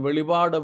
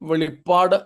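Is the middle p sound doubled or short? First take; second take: short; doubled. First: The middle p sound is short and single. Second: The middle p sound is long and doubled. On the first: The speaker calls it wrong. "തെറ്റായിട്ടാണ് ഉച്ചരിക്കുന്നത്" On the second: The speaker calls it right. "വെളിപ്പാട് എന്ന് തന്നെ പറയണം"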